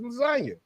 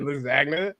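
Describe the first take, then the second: First: The G sound is left silent in the word. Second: The G sound is pronounced in the word. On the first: The speaker calls it right. "It's lasagna. G is silent" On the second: The speaker calls it wrong. "Nobody called it lasagna"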